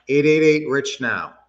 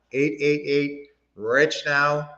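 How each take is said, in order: First: Said in the usual way. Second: Slow, each digit set apart so it can be written down; slow, careful repeat of the phone number; slow dictation. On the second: Shown as a demonstration. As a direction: read the number out slowly for the chat.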